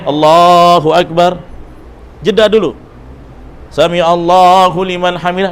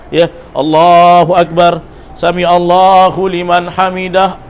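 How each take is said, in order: First: There is a pause between the phrases. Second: The phrases run together without a pause.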